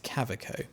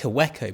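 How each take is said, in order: First: The name is said the German way. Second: The name is read the English way. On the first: This is how it is assumed to be said. "but it's German, so I'm assuming it's a Kaweco" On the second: This is how it looks when read. "It looks like Kaweco"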